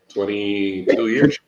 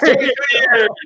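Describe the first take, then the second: First: It is said flatly, without much energy. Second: It is said loudly, with lively enthusiasm.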